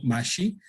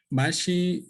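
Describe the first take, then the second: First: "mashi" with added intonation and a rising tune, meaning broom; "mashi" sung up a little with extra intonation; tonal mashi. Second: "Mashi" in an ordinary, level tone, meaning mucus; "Mashi" with no added intonation; plain tone mashi. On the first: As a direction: lift the tone of "mashi" as it ends. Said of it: "le pongo un poco de entonación y digo". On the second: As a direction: say "Mashi" in the normal tone. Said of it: "así como yo la estoy pronunciando". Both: Shown as a demonstration.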